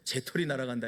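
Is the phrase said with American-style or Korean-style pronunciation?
Korean-style. It is said plainly with a clear t sound.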